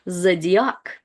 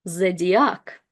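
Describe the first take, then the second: No difference in how they are said.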